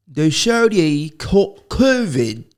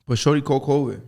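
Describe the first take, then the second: First: Slow, higher, drawn-out gossip reveal; mock dramatic announcement. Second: Said in the usual way. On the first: Spilling celebrity gossip to listeners, mock dramatic. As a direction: stretch it out like breaking news.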